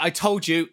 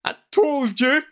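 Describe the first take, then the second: First: Said in the usual way. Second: High, loud, drawn-out tearful wail; hammed-up gasping through tears, pitched way up. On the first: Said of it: "just gonna use my voice". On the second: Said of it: "gasps through tears".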